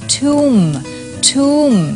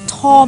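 First: An 'oo' vowel with a silent final b. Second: A short 'o' vowel with no final b. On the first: The speaker calls it right. "คำนี้อ่านว่าทุ่ม" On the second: The speaker calls it wrong. "คำนี้เนี่ยมันอ่านว่าอะไรอ่ะทอมหรอ"

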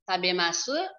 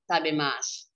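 First: The final u vowel is clearly pronounced. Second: The final u vowel is silent.

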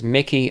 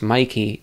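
First: The first vowel is short, as in 'kick'. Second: The first vowel is long, as in 'like'. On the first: "I will never pronounce that name as Mickey unless the sender explicitly implies that" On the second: "that name is always pronounced Mikey to me"

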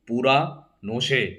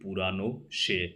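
First: The break falls after 'pura', splitting the word. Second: The break falls after 'purano', keeping the word whole. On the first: The speaker calls it wrong. "আলাদা আলাদা করে তোরা উচ্চারণ করে ভাবিস" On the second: The speaker calls it right. "আসল কথা হচ্ছে পুরানো সে"

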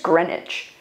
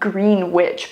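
First: The name is said in a shortened form. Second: The name is said the way it is spelled. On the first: "but I feel like it's Greenwich" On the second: "It's spelled Greenwich"

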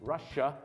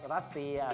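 First: The word is said with an English accent. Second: The word is said with a Thai accent. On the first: "สำเนียงฝรั่งนะครับ" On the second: "รัสเซียสำเนียงไทย"

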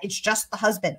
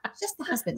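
First: It is said in the speaker's plain accent. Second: It is said in a put-on British-sounding accent.

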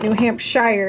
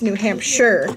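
First: The last syllable does not sound like 'sure'. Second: The last syllable sounds like the word 'sure'. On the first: The speaker calls it wrong. "It's not New Hampshire" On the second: The speaker calls it right. "it's New Hampshire"

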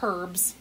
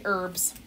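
First: The word begins with an h sound. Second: The word begins without an h sound. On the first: "I usually don't say herbs" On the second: "I say herbs"

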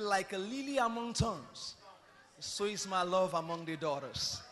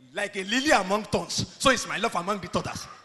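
First: It is read in a soft, tender voice. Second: It is read in a plain, ordinary voice.

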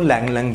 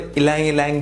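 First: Each word begins directly with an L sound. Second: Each word begins with an added vowel sound. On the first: This is how it is said in India and Malaysia. "हमारे India और Malaysia side इसको लैंग लैंग बोला जाता है" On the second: This is how many other people say it. "बहुत सारे लोग इसको इलांग इलांग भी प्रोनाउंस करते हैं"

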